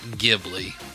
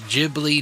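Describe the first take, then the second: First: It starts with a hard G and has L. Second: It starts with a J sound and has L. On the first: "versus a hard G" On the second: "in Japan they pronounce it with a soft G, which is a J sound"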